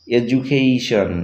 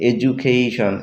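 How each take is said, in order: First: এডুকেশন drawn out very slowly, d said as j; very slow pronunciation demo. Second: Said in the usual way. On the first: Shown as a demonstration. Teacher modelling the j sound for viewers, very slow. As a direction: stretch every sound of এডুকেশন. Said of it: "এই শব্দগুলিতে দেখো আমরা ডি এর উচ্চারণ জর মতো পাচ্ছি". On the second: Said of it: "এই শব্দগুলিতে দেখো".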